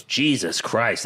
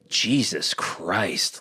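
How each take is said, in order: First: Said in the usual way. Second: Slow stunned "Jesus Christ"; awed Jesus Christ. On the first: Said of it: "Dodge, goes". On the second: Retold or imitated. Fan reliving the moment, slow awed gasp. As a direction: let it drop out slowly, awestruck. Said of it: "if I was in that moment, that's what I would say".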